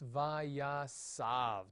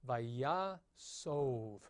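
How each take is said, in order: First: The last vowel sounds like 'ah'. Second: The last vowel sounds like 'oh'. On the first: The speaker calls it wrong. "you do not want to pronounce this vayasav. That would be terrible" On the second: The speaker calls it right. "That's a kametz hatuf under the samic. So vayasov is uh, the way you want to pronounce it"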